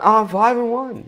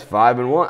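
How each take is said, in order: First: "Oh, five and one" much higher and slow, smug; mocking brag. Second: Said in the usual way. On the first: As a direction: parody the other guys boasting. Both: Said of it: "as opposed to the other guys".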